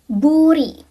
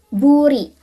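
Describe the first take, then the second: No difference in how they are said.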